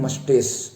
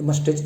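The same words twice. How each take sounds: First: मस्टेस with a final s sound; correct pronunciation. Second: मस्टेज with a final j sound; wrong pronunciation. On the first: Teacher correcting the wrong form, मस्टेस ending in s. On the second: Teacher rejecting the wrong form, मस्टेज ending in j. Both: Shown as a demonstration. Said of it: "ये मस्टेज नहीं".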